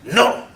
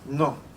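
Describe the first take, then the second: First: It is said with anger. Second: It is said simply and calmly.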